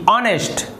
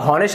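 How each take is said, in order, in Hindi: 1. यह शब्द सीधे एक स्वर ध्वनि से शुरू होता है। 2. यह शब्द एक सुनाई देने वाली h ध्वनि से शुरू होता है। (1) "यहाँ पर भी जो H है वो साइलेंट है" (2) "लेकिन इसे हॉनेस्ट नहीं कहते"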